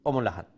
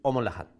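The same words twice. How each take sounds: No difference in how they are said.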